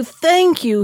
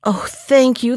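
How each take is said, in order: First: Thanks cried higher; joyful cry. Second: Thankful, near usual pitch; grateful cry. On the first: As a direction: lift it up with joy. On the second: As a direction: say it gladly. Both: Acted. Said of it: "he cried".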